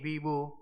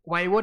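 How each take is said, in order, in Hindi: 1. पहला स्वर 'ee' जैसा उच्चारित होता है। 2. पहला स्वर 'eye' जैसा उच्चारित होता है।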